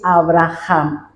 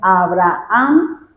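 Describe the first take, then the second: First: The middle h is a harsh throat sound. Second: The middle h is silent, with no throat sound. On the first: This is the original Hebrew pronunciation. "la pronunciación es Abraham, es decir, con la J" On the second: This is how it is usually said in Spanish. "Nosotros decimos Abraham"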